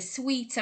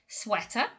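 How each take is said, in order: First: The first vowel sounds like in 'sweet'. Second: The first vowel sounds like in 'sweat'. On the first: The speaker calls it wrong. "a lot of people say the sweeter" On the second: The speaker calls it right. "it's most definitely sweater"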